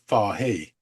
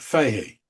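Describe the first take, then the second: First: The surname is pronounced with a British pronunciation. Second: The surname is pronounced with an American pronunciation. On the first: "the British way of pronouncing it is" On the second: "the U S A version of pronounce it is"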